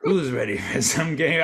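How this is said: It is said in a creepy Saw-guy voice.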